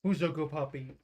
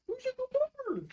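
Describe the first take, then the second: First: Said in the usual way. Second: High pet voice. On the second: Real, not acted. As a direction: coo it way up high to the dog. Talking to the dog.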